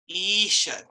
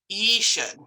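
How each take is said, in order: The two takes are said the same way.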